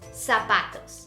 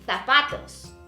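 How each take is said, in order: First: The z is said like an s, South American-style. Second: The z is said with a th sound, Spain-style.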